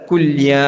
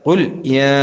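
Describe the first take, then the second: First: The two words run together as one. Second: The two words are kept clearly separate. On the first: The speaker calls it wrong. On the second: The speaker calls it right.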